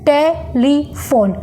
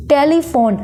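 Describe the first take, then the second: First: telephone slowly, a pause after each syllable; split into three syllables. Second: Said in the usual way. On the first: Shown as a demonstration. Teacher showing syllable count, telephone broken in three. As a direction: say telephone in three separate beats. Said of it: "जितनी बार हम pause लेंगे".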